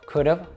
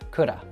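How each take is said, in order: First: The word ends with a clear v sound. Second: The word ends with a short uh sound. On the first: "a contraction" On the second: "reduce just to that schwa sound"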